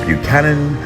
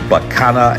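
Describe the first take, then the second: First: It is said the standard way. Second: It is said the local Virginia way. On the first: This is how it is said elsewhere. "and not" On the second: This is how locals in Virginia say it. "I don't know why we say"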